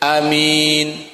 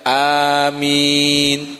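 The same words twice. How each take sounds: First: The vowel is kept short and quick. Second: The vowel is held long and drawn out. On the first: "bisa juga dibaca dengan pendek" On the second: "dibaca panjang"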